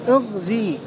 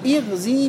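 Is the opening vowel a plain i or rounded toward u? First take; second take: rounded; plain. First: The opening vowel is rounded toward u. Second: The opening vowel is a plain i. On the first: "بالإشمام" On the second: "بكسر الهمزة"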